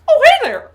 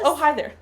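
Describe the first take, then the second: First: It is said in a Mickey Mouse voice. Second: It is said in a normal voice.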